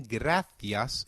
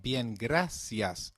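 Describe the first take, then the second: First: "gracias" with a lisped th, grathias; European Spanish gracias. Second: Slow "bien, gracias" with a clear s; Latin American bien gracias. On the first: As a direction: say "gracias" the Castilian way, th not s. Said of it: "in Europe". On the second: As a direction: stretch out "bien, gracias", the s sound. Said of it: "in Latin America". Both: Shown as a demonstration.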